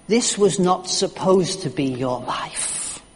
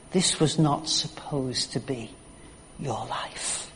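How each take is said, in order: First: Slow, deliberate mock yell, no real volume; retold yell. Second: Slow, low and softer, fading away; hushed repeat. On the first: Thief confronting his younger self, restrained retold yell. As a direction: yell it in restrained form, word by word. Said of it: "the thief yells at him". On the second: Retold or imitated. Preacher repeating the thief's words, hushed and slow. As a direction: let it sink to a hush.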